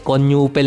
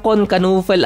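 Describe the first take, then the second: First: The surname starts with an N sound. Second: The surname starts with a K sound. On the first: This is a simpler way to say the name. "para mas madali" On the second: This is the proper pronunciation of the name. "ata ang tamang bigkas ng pangalan niya"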